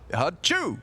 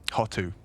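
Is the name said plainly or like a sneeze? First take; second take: sneeze; plainly. First: The name is blurted out like a sneeze. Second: The name is said plainly with a clear t. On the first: The speaker calls it wrong. "Did you sneeze?" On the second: The speaker calls it right. "That's how you say it"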